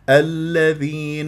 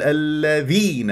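First: The dh sound is said lightly, without leaning. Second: The dh sound is leaned on heavily. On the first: The speaker calls it right. "بهذه الطريقة" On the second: The speaker calls it wrong. "هكذا الاتكاء"

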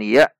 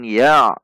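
First: The syllable ends open, with no throat closure. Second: The syllable ends with a closure in the throat. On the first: The speaker calls it wrong. "bukan ya" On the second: The speaker calls it right. "namun ya"

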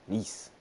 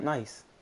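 First: The vowel sounds like 'ee', as in 'niece'. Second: The vowel sounds like 'eye', as in 'rice'. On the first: The speaker calls it right. "I know a lot of people like mispronounce that" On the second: The speaker calls it wrong. "not nice"

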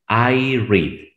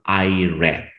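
First: Read has its present-tense pronunciation. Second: Read has its past-tense pronunciation. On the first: The reading happens now. "En presente decimos I read" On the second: The reading happened before. "En pasado, I read"

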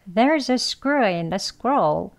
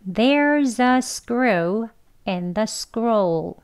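First: Faster, with the words linked together. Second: Slow, careful, with each word said separately. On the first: "대화 발음 두 번 할게요" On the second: "발음 천천히 해볼게요 / 책 발음"

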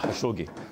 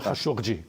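First: The name is said in an Egyptian Arabic way. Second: The name is said in a classical Arabic way. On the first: "вимовляють на єгипетський манер" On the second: "Правильно"

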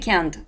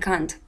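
First: It is said with an American accent. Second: It is said with a British accent. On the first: "Американцы говорят can или can't" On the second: "то они говорят I can't"

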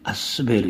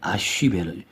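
First: The consonant after the first vowel is s. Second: The consonant after the first vowel is sh. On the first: The letter would be sin. "신이 와서 시옷 발음을 보면 아스베르 이렇게 나옵니다" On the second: The letter is shin. "쉰이기 때문에 아쉬베르"

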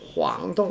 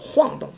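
First: The first syllable is not in the falling fourth tone. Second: The first syllable is in the falling fourth tone. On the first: The speaker calls it wrong. "All pronounced as" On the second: The speaker calls it right. "should be actually. ... it should be pronounced as forced tone"

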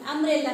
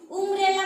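First: The first vowel sounds like 'uh'. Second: The first vowel sounds like 'oo'. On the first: The speaker calls it right. "अम्ब्रेला म्हणतो" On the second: The speaker calls it wrong. "उम्ब्रेला म्हणता का त्या ठिकाणी नाही"

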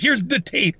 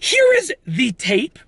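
First: Here is is run together as one contracted word. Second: Here and is are said as two separate words. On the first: The speaker calls it wrong. "I didn't say that properly. I said" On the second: The speaker calls it right. "let's pronounce it and enunciate properly"

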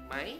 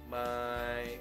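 First: The pitch rises sharply upward. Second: The pitch stays level throughout. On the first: "dia langsung naik, langsung ke atas nadanya" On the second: "dari flat tadi kan"

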